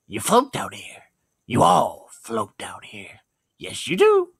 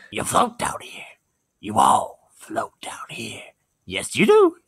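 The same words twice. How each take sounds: First: Drawn-out menace ending in a clown cackle; Pennywise voice, retake. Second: Pennywise voice. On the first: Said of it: "get the clown laugh right". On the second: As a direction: hiss it slowly, then a shrill clown laugh. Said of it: "what else did Pennywise say". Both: Pretend.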